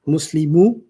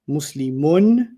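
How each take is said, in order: First: The word ends on a bare vowel. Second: The word ends with an n sound. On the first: "I took the ends off" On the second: "if you heard me say Muslimun, the last letter you heard was the letter N"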